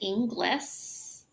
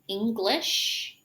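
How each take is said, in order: First: The word ends with a short 's' sound. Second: The word ends with a long 'sh' sound. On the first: The speaker calls it wrong. "commonly mispronounced" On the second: The speaker calls it right. "Make sure that you are saying shh"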